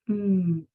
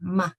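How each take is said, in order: First: It is a pure hum with closed lips. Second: The hum is followed by an added vowel. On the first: The speaker calls it right. "The correct sound for M is just mm" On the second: The speaker calls it wrong. "if you open your lips, another sound will come in. It'll be ma"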